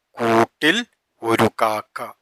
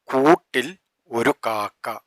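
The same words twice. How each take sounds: The two takes are said the same way.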